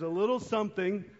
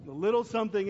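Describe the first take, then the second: First: Said in the usual way. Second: LITTLE punched higher and louder at the start; stress on LITTLE. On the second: Shown as a demonstration. Pastor teasing kids about a modest gift, stress on LITTLE. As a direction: lean hard on the word "little". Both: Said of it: "emphasis on little".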